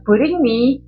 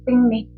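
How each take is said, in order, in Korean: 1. r 소리가 분명하게 발음돼요. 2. r 소리는 완전히 빠져요. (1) "브링미 하지 마시고" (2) "알 빼고 그냥 뺑미"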